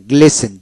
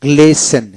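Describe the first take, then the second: No difference in how they are said.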